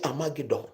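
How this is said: The word is said with a Ghanaian pronunciation. "In Ghana, we say Armageddon"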